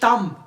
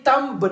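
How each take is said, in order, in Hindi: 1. अंतिम b की आवाज़ साइलेंट है। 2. अंतिम b की आवाज़ बोली जाती है। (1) "ये तम, बी इज साइलेंट" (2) "ये तम्ब नहीं है"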